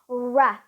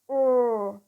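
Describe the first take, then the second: First: The r sound is released into a vowel. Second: The r sound is held without release. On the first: "If you release it, then it will sound like ra" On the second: "if you hold it, then it's r"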